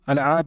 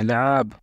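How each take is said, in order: First: The word begins with an 'a' before the 'l'. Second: The word begins directly with an 'l' sound. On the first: This is how some people say it. "लेकिन कुछ लोग अलआब, अलआब ऐसे करके बोलते हैं" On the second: This is how the word is written. "वैसे लिखा लआब जाता है"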